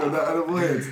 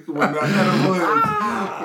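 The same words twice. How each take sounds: First: Said in the usual way. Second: Slow, laughing, drawn-out; stoned. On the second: Pretend. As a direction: draw it out like you're high. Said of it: "edible joke repeated, laughing".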